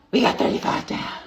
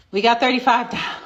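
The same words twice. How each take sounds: First: Breathy whisper of the same count; whispered repeat. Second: Said in the usual way. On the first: Real, not acted. Host repeating the squat count to viewers in a whisper. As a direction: say it again under your breath.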